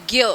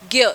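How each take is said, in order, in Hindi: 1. यह 'gy' की आवाज़ से बोला जाता है। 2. यह 'gy' की आवाज़ से बोला जाता है।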